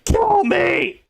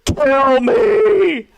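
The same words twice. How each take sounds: First: High-pitched imitation of screaming; mock scream. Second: High, loud, hammed-up crying wail; mock crying. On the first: Streamer imitating the woman in the video, mock scream. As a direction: screech it in mock agony. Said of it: "where she's screaming". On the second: Streamer imitating her favourite crying clip, loud mock wail. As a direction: imitate a desperate sobbing scream. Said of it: "where she's crying".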